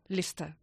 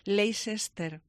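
First: The word is shortened to about two syllables. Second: Every written syllable is pronounced in full. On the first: The speaker calls it right. "¿Y cómo se pronuncia?" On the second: The speaker calls it wrong. "tendemos muchísima tendencia a decir Leicester"

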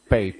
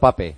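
First: The name is pronounced the original foreign way. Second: The name is pronounced the Spanish way. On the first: "Y en el original" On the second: "En castellano"

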